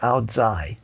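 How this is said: It is said with a Northern Vietnamese pronunciation. "in North Vietnam it's pronounced ao dai"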